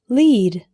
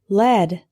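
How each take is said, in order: First: The vowel is long, like 'leed'. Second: The vowel is short, like 'led'. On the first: It means to direct or show the way. "Lead is a verb meaning to direct" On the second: It names a type of metal. "When L E A D is pronounced lead, this refers to a type of metal"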